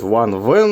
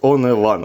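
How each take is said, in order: First: The name begins with a v sound. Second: The name begins with a vowel sound. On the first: This is how others say it should be said. "правильно будет Ван-Вен" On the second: This is the speaker's own habitual way of saying it. "Для меня это будет Оневан"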